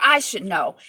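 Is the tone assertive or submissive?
assertive. It is said firmly and assertively.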